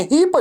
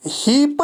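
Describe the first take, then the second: First: हीप ending in a t sound, raised; correct pronunciation. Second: हीप said as written, wrong; wrong pronunciation. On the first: Teacher shows students the right ending. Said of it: "टो की आवाज़". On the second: Teacher shows students the wrong ending. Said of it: "हीप नहीं है". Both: Shown as a demonstration.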